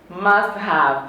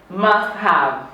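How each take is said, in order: The two takes are said the same way.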